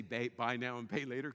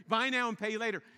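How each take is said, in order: First: Knowing slogan. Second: Loud, bright advertising pitch; sales slogan. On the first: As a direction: say it like a knowing insider. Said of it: "That's why they say". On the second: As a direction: sell it like a store ad. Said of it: "You heard this, right?". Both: Retold or imitated.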